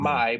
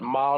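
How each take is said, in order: First: The vowel glides into a second sound. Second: The vowel stays on one steady sound. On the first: The speaker calls it wrong. "So not" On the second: The speaker calls it right. "keep it staying on the vowel"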